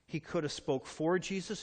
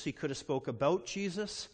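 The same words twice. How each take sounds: First: "for" leaned on, the rest even; stress on FOR. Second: "about" leaned on, answering for; stress on ABOUT. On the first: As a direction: press the word "for" to set it against about. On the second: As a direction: press the word "about" to set it against for. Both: Shown as a demonstration.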